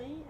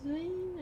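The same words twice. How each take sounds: First: "Hisuian" ending in a "way" sound; unsure "Hisuian", said hiz-way; second pronunciation guess. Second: "Hisuian" said as "hiz-win"; unsure "Hisuian", squeezed to hiz-win; first pronunciation guess. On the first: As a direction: try "Hisuian" as hiz-way, questioning. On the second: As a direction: try "Hisuian" in two syllables, hiz-win. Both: Shown as a demonstration. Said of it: "I don't know how to say it".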